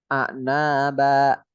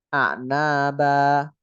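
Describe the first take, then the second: Both takes have the same delivery.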